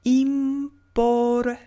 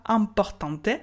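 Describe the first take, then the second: First: Importante with a clear i and a final e, drawn out; slow Spanish model. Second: Importante said as ɛ̃portɑ̃t, nasal; French-style nasal. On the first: Teacher modelling importante slowly and clearly. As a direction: say im-por-tan-te slowly. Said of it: "on dit". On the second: Teacher mocking the French-accented importante. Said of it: "On ne dit pas". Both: Shown as a demonstration.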